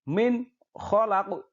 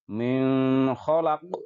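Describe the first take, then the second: First: The n is said clearly without a hum. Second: The n is held with a nasal hum. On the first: The speaker calls it right. "Yang betul adalah harus dengan jelas tanpa mendengung" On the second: The speaker calls it wrong. "kita tidak boleh membaca dengan mendengung seperti min khalaq. Nah, ini berarti salah"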